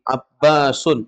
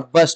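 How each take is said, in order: First: The name ends with an added -un syllable. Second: The name ends on a bare final s. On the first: The speaker calls it right. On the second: The speaker calls it wrong.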